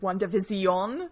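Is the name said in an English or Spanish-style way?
Spanish-style. The name is said with a Spanish-like accent. It sounds like a dramatic soap opera title. The speaker calls it right. "It's much more exciting if you pronounce it WandaVision and think of it as a telenovela"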